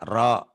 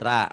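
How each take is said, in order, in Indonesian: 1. Suku katanya diakhiri vokal 'o' yang berat dan membulat. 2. Suku katanya diakhiri vokal 'a' yang ringan dan terbuka. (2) "bukan ra"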